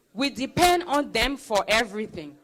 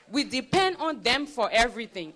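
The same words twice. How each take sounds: The two takes are said the same way.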